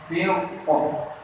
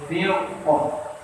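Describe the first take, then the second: No difference in how they are said.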